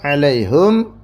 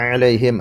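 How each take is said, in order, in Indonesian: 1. Suku kata terakhir memiliki vokal u. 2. Suku kata terakhir memiliki vokal i. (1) "alaihum hanya di dhamma" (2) "alaihim hanya di kasrah"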